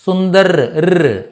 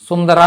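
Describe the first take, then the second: First: సుందర్ ending on a bare ర్; cut-off final r. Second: సుందరా with a long aa after r; wrong full ending. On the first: Teacher drills the right ending, సుందర్ closed on ర్. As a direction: stop సుందర్ on the r and isolate it. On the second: Teacher shows what to avoid, సుందరా ending in raa. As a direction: open the end of సుందరా into a full syllable. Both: Shown as a demonstration. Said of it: "సుందరా అనకూడదు".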